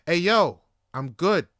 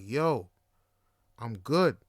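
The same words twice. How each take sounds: First: Louder, sharper retold refusal; acting out patience running out; upset refusal. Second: Low, measured refusal with a pause after "Yo"; retold refusal, voice dropped, patience thinning; firmer refusal. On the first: Telling his pushy date no, louder and more upset. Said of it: "getting more and more upset". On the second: Turning down the weed as his tone changes, low and firm. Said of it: "my tone starts changing".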